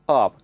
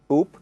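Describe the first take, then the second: First: The vowel sounds like the one in 'cup'. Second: The vowel sounds like the one in 'book'. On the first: This is how southern English speakers say it. "like in the word cup, up in the south" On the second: This is how northern English speakers say it. "like in the word book, up in the north"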